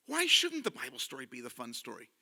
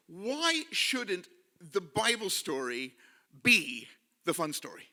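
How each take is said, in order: First: Said in the usual way. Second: Spaced out with BE hit hard; slow, chunked question landing on BE; stress on BE. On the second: Real, not acted. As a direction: pause round "the Bible story", punch BE. Rhetorical question, then repeated in one go.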